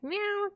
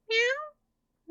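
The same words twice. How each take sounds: First: The meow is lower in pitch. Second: The meow is higher in pitch.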